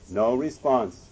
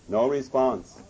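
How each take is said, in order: The two takes are said the same way.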